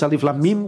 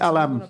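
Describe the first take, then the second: First: Three separate letter names are said one by one. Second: The letters are joined and said as one word. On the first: The letters carry no meaning beyond their sound. "we have the first case Alif Lam Mim" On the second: It is the beginning of a question. "the second is Alam"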